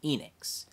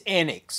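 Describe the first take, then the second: First: The first vowel is a long 'ee' sound. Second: The first vowel is a short 'eh' sound. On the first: This is how it is said in North America. "most people in North America say Square Enix or just Enix" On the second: This is how it is said in Japan. "in Japan, it's Enix"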